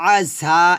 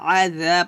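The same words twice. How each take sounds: First: The syllable is said thick and heavy. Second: The syllable is said thin and light. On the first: The speaker calls it wrong. "আযা এটা হবে না" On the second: The speaker calls it right. "হবে আযা পাতলা করে"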